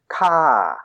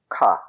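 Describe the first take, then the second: First: The pitch falls from high to low. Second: The pitch stays level and low. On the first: "That's falling, ka. So that's all the way from high to way down low" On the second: "The next one is low"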